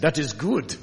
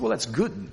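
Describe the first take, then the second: First: Imitated German accent, firmly stated. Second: Said in the usual way. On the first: Preacher quoting his friend Sven, in a German accent. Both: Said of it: "in his German accent".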